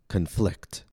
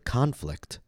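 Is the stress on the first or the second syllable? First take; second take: second; first. First: The stress is on the second syllable. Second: The stress is on the first syllable. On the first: It is a verb: to disagree with each other. "When the word is used as a verb, the stress will fall on the second syllable" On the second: It is a noun: a fight or war. "When the word is used as a noun, the stress will fall on the first syllable"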